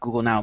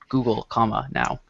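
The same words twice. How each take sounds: First: The two words run together without a pause. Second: A pause separates the two words. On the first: It names the app called Google Now. "Not Google Now" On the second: It names the company, which owns it now. "but Google, Now"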